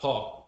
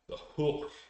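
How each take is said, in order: First: The name rhymes with "talk". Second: The name rhymes with "book". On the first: The speaker calls it wrong. "Not Hawk" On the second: The speaker calls it right. "You have to you know, enunciate it that way"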